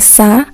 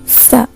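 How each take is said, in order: First: The first consonant is a plain hissing s. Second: The first consonant is made with tongue at teeth. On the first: The speaker calls it wrong. "bukan sa" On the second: The speaker calls it right. "Ujung lidah dirapatkan dengan gigi atas"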